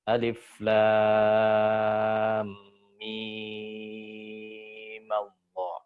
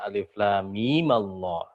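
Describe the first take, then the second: First: The vowel of mim is stretched long, six beats. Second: The vowel of mim is held briefly, two beats. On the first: "dia dipanjangin jadi tul, isba. Enam harokat" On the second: "Dia koser dua harokat"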